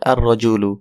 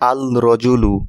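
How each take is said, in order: First: The L merges into a doubled R sound. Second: The article's L sound is clearly pronounced. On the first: The speaker calls it right. "লামকে স্কিপ করা হয়েছে, অর্থাৎ উচ্চারণ হবে আর রজুলু" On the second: The speaker calls it wrong. "আল রজুলু না হয়ে"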